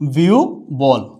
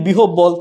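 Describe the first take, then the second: First: The middle is said as a 'u' glide plus 'bh'. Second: The middle is said as 'h' followed by 'b'. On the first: The speaker calls it right. "উচ্চারণটা হচ্ছে কি?" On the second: The speaker calls it wrong. "আমরা যদি বলি বিহব বল তাহলে কিন্তু হবে না"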